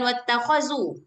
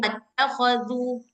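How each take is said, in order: First: The consonant is a plain 'z' with tongue inside. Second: The consonant is a voiced 'th' with tongue out. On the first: The speaker calls it wrong. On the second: The speaker calls it right. "tapi wattakhadhu"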